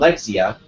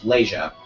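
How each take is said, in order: First: The middle of the name has a 'ks' sound. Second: The middle of the name has a 'sh' sound. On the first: The speaker calls it wrong. "I used to call her Lexia because of the way the name looked" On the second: The speaker calls it right. "turns out it's Leisha"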